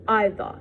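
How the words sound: The final R sound is left out. "the British will avoid completely this R"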